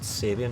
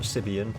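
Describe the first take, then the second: First: The first syllable sounds like 'sab'. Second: The first syllable sounds like 'sib'. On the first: The speaker calls it right. "these are pronounced Sabian" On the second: The speaker calls it wrong. "not Sibian. ... I was saying it wrong"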